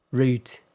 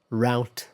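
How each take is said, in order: First: Route sounding like root; British pronunciation. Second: Route rhyming with out; American pronunciation. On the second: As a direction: say route as "rowt". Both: Shown as a demonstration.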